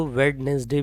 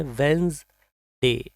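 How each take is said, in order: First: वेडनेसडे with the first d sounded; common mispronunciation. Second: वेंसडे as two parts, "wens-day"; correct pronunciation. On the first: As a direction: say वेडनेसडे as "wed-nes-day", three syllables. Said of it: "कुछ लोग इसको". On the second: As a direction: say वेंसडे with the first d silent. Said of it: "इसकी right pronunciation है". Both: Shown as a demonstration.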